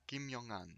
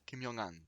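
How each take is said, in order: First: The syllables run together with a linking sound. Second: The same.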